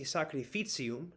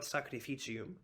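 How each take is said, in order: First: It is said with a northern Italian ts sound. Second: It is said with a Tuscan ch sound.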